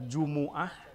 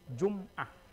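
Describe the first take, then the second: First: A short u vowel follows the m sound. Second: No vowel follows the m sound. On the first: It refers to the day, Friday. "Jumu'ah ini kalau dibaca Jumu'ah atau Jumaah juga bisa" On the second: It refers to a week. "Bagaimana kalau dibacanya sukun?"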